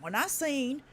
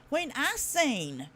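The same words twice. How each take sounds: First: Said in the usual way. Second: "I seen" stretched slowly and pitched up; slow, high stress on "I seen"; emphatic repeat. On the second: Real, not acted. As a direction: lean hard on "I seen", drawing it out.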